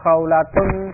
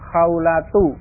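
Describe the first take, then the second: First: The word ends with an added n sound. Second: The word ends on a vowel without n. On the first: The speaker calls it wrong. "jadi bukan khawlatun, khadijatun, bukan seperti itu" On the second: The speaker calls it right. "Tapi yang benar"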